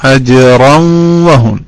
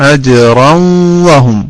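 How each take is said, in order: The two takes are said the same way.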